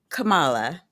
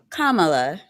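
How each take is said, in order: First: The name does not begin like comma. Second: The name begins like the word comma. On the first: The speaker calls it wrong. "not Kamala" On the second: The speaker calls it right. "it is Kamala"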